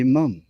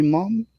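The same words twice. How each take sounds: First: "mum" with a short uh vowel; British "mum". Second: "mom" with an open ah vowel; American "mom". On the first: Man contrasts English and American words, short uh in "mum". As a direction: say "mum" the English way, rhyming with hum. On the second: Man contrasts English and American words, opening the vowel in "mom". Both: Shown as a demonstration. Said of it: "you can say mom instead of mum".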